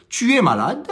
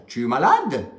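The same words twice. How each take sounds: First: Tu es malade said flat, like a statement; plain statement. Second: Tu es malade asked with a questioning tune; rising question. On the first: Teacher showing the statement form, plain and flat. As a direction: state Tu es malade without questioning. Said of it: "la phrase déclarative comme telle est". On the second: Teacher showing a question asked by intonation alone. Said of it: "je change la façon dont je pose la question". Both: Shown as a demonstration.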